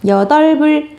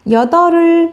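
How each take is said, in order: First: The b of the cluster is carried over. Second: The b of the cluster is not carried over. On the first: The speaker calls it right. "이상해 보이지만 여덟불 맞는 발음입니다" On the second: The speaker calls it wrong. "이렇게 발음하는 게 맞을까요?"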